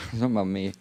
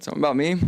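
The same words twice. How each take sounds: First: Laughing. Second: Said in the usual way. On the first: Real, not acted.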